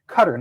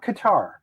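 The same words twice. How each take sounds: First: The name sounds like the word 'cutter'. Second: The name does not sound like 'cutter'. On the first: This is how people in the region say it. "people from the Middle East call it Qatar, C U T E R" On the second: This is how outsiders usually say it. "not Qatar"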